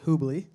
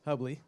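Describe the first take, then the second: First: The first vowel sounds like 'oo'. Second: The first vowel sounds like 'uh'. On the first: The speaker calls it wrong. "not Hoobly" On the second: The speaker calls it right.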